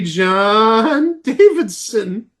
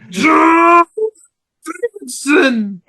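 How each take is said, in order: First: It is said in a plain, normal voice. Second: It is said in a tight, straining voice.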